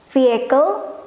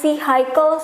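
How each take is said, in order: First: The i does not sound like 'eye'. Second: The i sounds like 'eye', as in cycle. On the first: The speaker calls it right. "Padahal harusnya vehicle" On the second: The speaker calls it wrong. "Bacanya vehicle, ikut-ikutan sama ini. Jadinya I, I, vehicle sampai diketawain"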